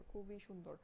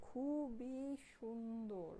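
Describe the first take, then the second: First: Said in the usual way. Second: খুবই সুন্দর stretched very long and slow; slow, gushing stretch on খুবই সুন্দর; drawn-out emphasis. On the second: Real, not acted. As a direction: linger on each syllable of খুবই and সুন্দর. Gushing, then repeats it normally.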